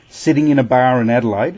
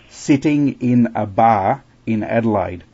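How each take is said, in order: First: The phrase is said at a normal pace. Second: The phrase is said slowly and deliberately.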